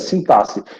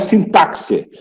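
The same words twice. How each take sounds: First: The x is said as a plain s sound. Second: The x is said as a ks sound. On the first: The speaker calls it right. "Olha como é que se pronuncia" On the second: The speaker calls it wrong. "Não é sintaxe"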